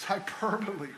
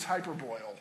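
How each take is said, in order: First: "hyperbole" said hy-PER-bo-lee, four syllables, stress on PER; correct pronunciation. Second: "hyperboil" said as hyper-boil, three syllables ending like boil; wrong pronunciation. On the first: Preacher correcting himself for the congregation, "hyperbole" as hy-PER-bo-lee. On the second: Preacher recalling his school mistake, "hyperboil" as hyper-boil. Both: Shown as a demonstration. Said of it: "I used to think it was hyperboil".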